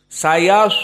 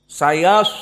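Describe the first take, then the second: Both takes have the same delivery.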